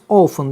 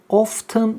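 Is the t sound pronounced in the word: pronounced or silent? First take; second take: silent; pronounced. First: The t sound is silent in the middle. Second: The t sound is pronounced in the middle. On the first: The speaker calls it right. "Often diye okunur. / T burada okunmaz" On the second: The speaker calls it wrong. "often diye okunmaz"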